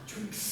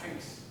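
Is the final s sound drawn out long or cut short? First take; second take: long; short. First: The final s sound is drawn out long. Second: The final s sound is cut short. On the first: The speaker calls it wrong. "not drinks" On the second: The speaker calls it right. "No, fast"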